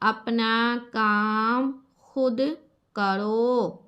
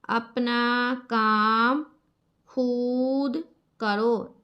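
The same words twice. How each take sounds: First: The vav vowel is blended smoothly into the word. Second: The vav vowel is sounded separately, not blended. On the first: The speaker calls it right. "इसको mix करेंगे" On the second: The speaker calls it wrong. "ऐसा इसको नहीं पढ़ना"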